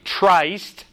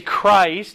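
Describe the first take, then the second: First: The word begins with a soft ch sound. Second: The word begins with a hard k sound. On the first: The speaker calls it wrong. "we don't say Trist" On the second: The speaker calls it right. "It's a hard CH"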